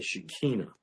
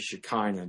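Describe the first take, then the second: First: It is pronounced in a Hebrew way. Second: It is pronounced in an English-style way. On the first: "that's the proper Hebrew way to pronounce that word" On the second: "You can say Shekinah"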